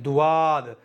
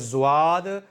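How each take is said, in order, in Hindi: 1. यह ड और एक अतिरिक्त 'u' स्वर से शुरू होता है। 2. यह ज़ जैसी गूँजती आवाज़ से शुरू होता है। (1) "ये दोनों ही गलत हैं" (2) "ये दोनों ही गलत हैं"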